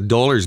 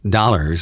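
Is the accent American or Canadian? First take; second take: Canadian; American. First: It is said in a Canadian accent. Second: It is said in an American accent.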